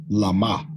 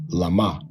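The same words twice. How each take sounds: Both takes have the same delivery.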